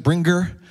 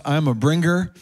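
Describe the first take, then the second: First: Bringer with a Portuguese accent, rolled and clipped. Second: Said in the usual way. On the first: Shown as a demonstration. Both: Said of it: "I say it with a Portuguese accent".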